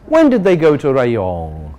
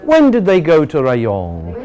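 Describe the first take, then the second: Both takes have the same delivery.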